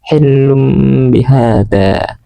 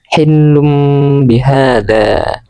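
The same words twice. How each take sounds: No difference in how they are said.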